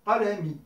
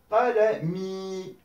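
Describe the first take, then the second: First: Qalami with a short, clipped final i of one beat. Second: Qalami with the final i held for two beats, slowly; long final i. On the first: Teacher showing the word without lengthening, short vowels. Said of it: "si j'avais pas mis la, l'allongement". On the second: Teacher showing students the long kasra, slow and drawn out. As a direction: stretch the last i of qalami. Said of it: "j'ai l'allongement de la kasra". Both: Shown as a demonstration.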